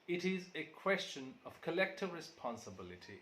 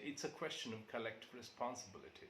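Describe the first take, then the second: First: 'It is' is said as two full words. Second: 'It is' is shortened to one syllable. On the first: The speaker calls it wrong. "Rather saying it is" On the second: The speaker calls it right. "we say it's"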